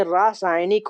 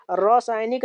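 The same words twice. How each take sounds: First: रासायनिक said as "rasainik" with a clear long a first; correct form read out. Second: रासायनिक said as "rosainik" with an o in the first syllable; wrong spelling read out. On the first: Teacher reading the correct form of रासायनिक, rasainik. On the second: Teacher reading the wrong form of रासायनिक, rosainik. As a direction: read the misspelt रासायनिक with an o sound at the start. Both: Shown as a demonstration. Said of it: "रासायनिक नहीं बल्कि रासायनिक होता है".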